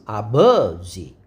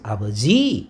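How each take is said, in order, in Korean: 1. 강세는 두 번째 음절에 있어요. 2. 강세는 세 번째 음절에 있어요. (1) "버에가 강세가 있으면" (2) "지혜가 강세가 있으면"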